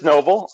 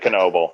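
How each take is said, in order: First: The word starts with an N sound. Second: The word starts with a sounded K. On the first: The speaker calls it right. "it is just Noble" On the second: The speaker calls it wrong. "the telemarketers pronounce it Knoble"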